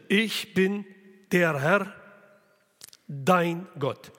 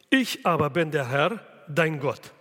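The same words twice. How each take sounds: First: "ich bin" and "der Herr" each stressed, with a pause between; separate stress on bin and Herr. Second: Said in the usual way. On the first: Shown as a demonstration. Preacher voicing God to the unfaithful people, both parts stressed. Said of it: "separat beides betonen". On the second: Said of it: "diese Betonungen müssen wir".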